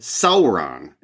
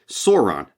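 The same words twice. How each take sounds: First: The first syllable does not sound like 'saw'. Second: The first syllable sounds like 'saw' in sauropod. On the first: The speaker calls it right. "is how you're supposed to pronounce it" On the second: The speaker calls it wrong. "For years I'd pronounced it Sauron, thinking like oh it's like sauropod"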